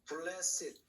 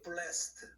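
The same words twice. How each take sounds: First: The word is said as two syllables. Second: The word is said as one syllable. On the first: It is an adjective. "형용사로 볼 때는 blessed" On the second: It is a past participle. "ed가 과거 분사면은 발음이 blessed"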